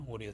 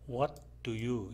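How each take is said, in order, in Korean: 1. 단어들이 붙어서 줄어들어 발음돼요. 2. 각 단어를 다 따로따로 발음해요. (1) "인포멀하게 말할 때는" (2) "이렇게 발음하지 않고요"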